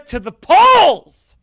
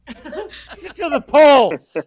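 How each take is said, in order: First: To the polls punched higher and louder, slow; louder, slow slogan shout. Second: Pizza to the polls drawn out slow, higher, through a laugh; slower, laughing repeat; repeated slogan. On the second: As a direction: savor the slogan slowly with a laugh. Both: Acted.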